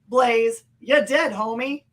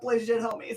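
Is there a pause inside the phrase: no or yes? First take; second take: yes; no. First: The phrase is said with a pause inside it. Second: The phrase is said straight through without pausing. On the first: "if there was a pause there" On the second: "or just straight up"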